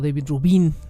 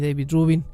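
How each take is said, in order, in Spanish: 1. El nombre se pronuncia con acento español. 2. El nombre se pronuncia con acento estadounidense. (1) "o David Rubin, más bien" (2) "siempre lo pronuncio como si fuera gringo"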